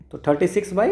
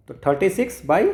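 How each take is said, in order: Both takes have the same delivery.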